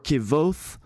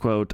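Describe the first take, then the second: First: The name starts with a 'kv' sound. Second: The name starts with a 'kw' sound. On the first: The speaker calls it wrong. "I think Kvothe or Kvothe is the coolest way of saying that name" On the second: The speaker calls it right. "I know that it's quote"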